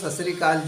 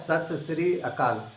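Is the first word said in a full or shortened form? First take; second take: shortened; full. First: The first word is clipped to a short 'sat'. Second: The first word is said fully as 'satya'. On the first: This is how it sounds when said quickly. "जल्दी से आप सुनेंगे तो आपको सत श्री अकाल जी सुनाई देगा" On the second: This is the actual form of the words. "वास्तविक शब्द है सत्य श्री अकाल"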